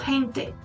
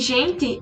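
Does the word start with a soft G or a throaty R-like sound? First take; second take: throaty R; soft G. First: The first sound is a throaty R-like sound. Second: The first sound is a soft G sound. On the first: This is how Spanish speakers say it. "como se tivesse uma, uma R, eles pronunciam gente" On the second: This is how Portuguese speakers say it. "o som de, de G normal pra gente"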